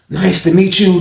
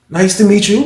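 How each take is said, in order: First: It is said in an exaggerated, theatrical way. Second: It is said in a plain, ordinary way.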